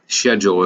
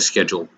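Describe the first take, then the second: First: It is said in an imitated British accent. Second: It is said in a plain American accent.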